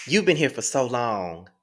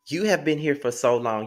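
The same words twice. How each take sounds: First: Said in the usual way. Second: "have" spelt out and stressed, not contracted. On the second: Shown as a demonstration. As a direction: lean on the word "have".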